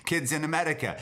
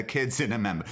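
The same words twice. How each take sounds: First: Said in the usual way. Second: "Amemba" again with m for r, a playful wrong take; "Kids in Amemba", the wrong version; mock mispronunciation. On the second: Shown as a demonstration. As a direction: garble "Amemba" on purpose before correcting.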